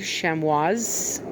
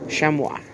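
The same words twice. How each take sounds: First: The word ends with an audible S sound. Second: The word ends without any S sound. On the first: "pronounced the S" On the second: "that's probably not pronouncing the S"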